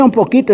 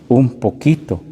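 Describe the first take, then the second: First: Un poquito lifted high and pressed; un poquito pointed up, as if saying barely anything; stress on un poquito. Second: Said in the usual way. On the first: Shown as a demonstration. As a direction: raise the pitch on un poquito to stress how small. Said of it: "cuando dice". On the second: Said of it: "está diciendo".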